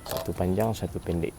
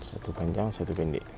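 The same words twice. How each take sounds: The two takes are said the same way.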